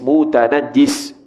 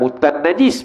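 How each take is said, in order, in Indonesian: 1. Bunyi j ditahan lama dan dobel. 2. Bunyi j pendek dan tunggal. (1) "kena sebut dengan betul"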